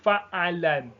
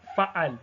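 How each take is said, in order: First: The word ends with an added vowel and n. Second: The word ends on a bare consonant.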